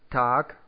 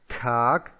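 First: The T has only a light puff of air. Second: The T has a strong burst of air. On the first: The speaker calls it right. "es trifft wiederum ziemlich genau das T in den Worten Tag und Tau" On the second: The speaker calls it wrong. "nicht Tag, also dass wir sehr, sehr viel Luft austreten lassen nach dem Aussprechen des T"

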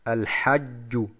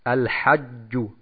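The two takes are said the same way.

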